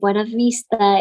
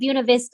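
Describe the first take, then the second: First: The name is pronounced the Spanish way. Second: The name is pronounced the local English way. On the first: This is how it would be said in Spanish. "if you're pronouncing it with Spanish pronunciation" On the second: This is how the locals say it. "the locals call it Buena Vista"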